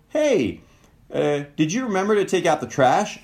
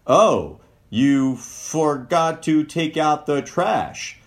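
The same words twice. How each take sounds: First: High, sweet asking lilt; sweetest tone. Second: Slow, pointed reproach; critical tone. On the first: Partner gently asking about the trash, sweet and high. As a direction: ask it as sweetly as you can. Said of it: "in your sweetest tone possible". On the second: Partner pointing out the forgotten trash, slow reproach. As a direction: let the blame drip through the words. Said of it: "Just your tone of voice". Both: Shown as a demonstration.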